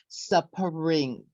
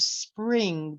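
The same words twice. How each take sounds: First: The S and P sounds are broken apart. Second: The S and P sounds are joined together. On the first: The speaker calls it wrong. "they separate the S sound and the P sound and they say spring" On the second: The speaker calls it right. "Instead of spring"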